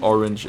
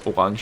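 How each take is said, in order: First: The word is said with an English pronunciation. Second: The word is said with a Danish pronunciation. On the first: "you pronounce orange" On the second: "as orange in Danish"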